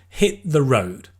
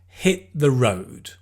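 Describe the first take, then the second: Both takes have the same delivery.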